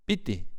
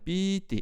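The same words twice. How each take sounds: First: The vowel is said short. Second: The vowel is held long.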